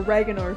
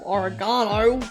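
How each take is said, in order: First: It is pronounced the American way. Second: It is pronounced the British way.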